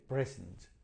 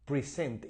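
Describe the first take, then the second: First: The stress is on the first syllable. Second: The stress is on the second syllable. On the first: It is a noun meaning a gift. "la fuerza, ¿no?, de la pronunciación está aquí en la primera sílaba" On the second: It is a verb. "y tiene el acento, ¿no?, verdad?, en la segunda sílaba"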